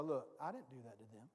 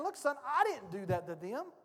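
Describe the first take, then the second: First: Much lower, much softer and quicker; a hushed low reassurance from Jesus; gentle Jesus. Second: Said in the usual way. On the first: Retold or imitated. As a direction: say it close, a hand on his shoulder. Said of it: "Jesus puts his hand on my shoulder and go". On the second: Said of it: "it's like the Lord is saying".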